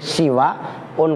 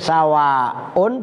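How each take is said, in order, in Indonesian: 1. Suku kata pertama memiliki vokal 'i'. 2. Suku kata pertama memiliki vokal 'a'. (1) "Kalau siwaun berarti seperti bina, binaun" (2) "Yang ketiga sawaun itu sama dengan samaun"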